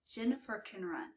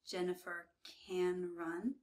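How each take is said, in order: First: The word can is reduced to a quick kn. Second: The word can has a full clear vowel. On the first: The speaker calls it right. "When we speak quickly, it sounds like this" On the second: The speaker calls it wrong. "You don't hear"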